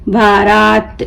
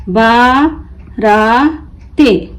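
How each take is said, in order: First: Said in the usual way. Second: बाराते spelled slowly as बा, रा, ते; broken into syllables. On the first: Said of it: "मिलकर क्या बना इसको". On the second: Shown as a demonstration. Teacher breaking the word for learners, बा... रा... ते apart. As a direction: pause between each piece of बाराते. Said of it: "तोड़ तोड़ कर पढ़ना सीखें".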